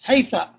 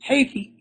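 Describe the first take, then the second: First: The word ends with an a vowel. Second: The word ends with an i vowel. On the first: A third group of Arabs says it this way. "some Arabs say haytha" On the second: Another group of Arabs says it this way. "some Arabs say haythi"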